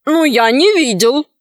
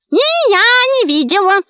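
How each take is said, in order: First: Lightly voiced bandit chief; understated put-on denial; feigned innocence. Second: High witch's shriek; high-pitched, emphatic denial; shouted. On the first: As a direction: deny it with mild innocence. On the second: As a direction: cry it out as a high-voiced witch. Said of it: "крикнула ведьма". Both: A narrator's reading.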